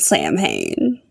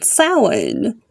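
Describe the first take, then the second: First: It is said letter by letter, like English. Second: It is said the traditional Gaelic way. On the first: The speaker calls it wrong. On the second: The speaker calls it right.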